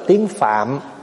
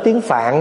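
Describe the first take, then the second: First: The last word ends in an m sound. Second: The last word ends in an n sound. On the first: This is the original full form. The speaker calls it right. "nếu mà nói phát âm cho đúng phải nói là tiếng phạm" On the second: This is the everyday shortened form. The speaker calls it wrong. "mình bây giờ mình nói gọn lại là tiếng phạn"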